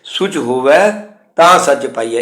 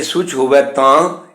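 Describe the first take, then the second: First: Rising ਹੋਵੈ, break, then ਤਾਂ ਸੱਚ ਪਾਈਐ together; mistaken pause. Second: ਸੁਚ ਹੋਵੈ ਤਾਂ slow, rising into a pause; comma pause after ਤਾਂ. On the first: Teacher warns against this reading, breaking after ਹੋਵੈ. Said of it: "ਇਹ ਉਚਾਰਨ ਅਸ਼ੁੱਧ ਹੈ". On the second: Teacher shows where to stop, ਤਾਂ held as a comma. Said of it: "ਇੱਥੇ ਜਾ ਕੇ ਕੌਮੇ ਦੀ ਆਵਾਜ਼ ਦੇ ਤੌਰ 'ਤੇ ਰੁਕਣਾ ਹੈ". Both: Shown as a demonstration.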